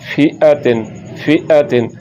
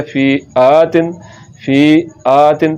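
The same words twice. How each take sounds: First: फी अ तिन with a brief अ; unstretched hamza अ; short vowel. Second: फी आ तिन with आ held long; slow, mistaken long आ; wrongly lengthened vowel. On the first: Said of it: "लंबा नहीं करना". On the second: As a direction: drag out the aa in फी आ तिन. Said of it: "तो ये गलत है". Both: Shown as a demonstration.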